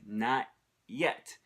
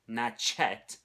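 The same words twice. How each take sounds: First: The t and y sounds are kept separate. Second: The t and y blend into a ch sound. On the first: "She said not yet" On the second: "She didn't say not yet"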